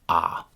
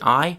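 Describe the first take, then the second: First: The vowel stays a single steady ah. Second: The vowel glides from ah toward ee. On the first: "a chewing gum pronunciation" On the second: "the classic classroom pronunciation"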